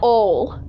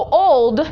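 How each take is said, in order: First: The final D sound is dropped. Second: The final D sound is pronounced.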